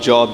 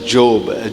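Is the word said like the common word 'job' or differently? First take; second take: like 'job'; differently. First: It sounds like the everyday word for work. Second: It sounds different from the everyday word for work. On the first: It is read as the word for employment. The speaker calls it wrong. "I used to uh, say job, job, job. फिर पता चला वो job नहीं है" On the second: It is read as the name of the person. The speaker calls it right. "it has to be pronounced as Job"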